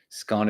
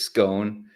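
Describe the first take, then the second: First: The vowel sounds like the one in gone. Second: The vowel sounds like the one in cone. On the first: "Scone is gone" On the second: "Cone is scone"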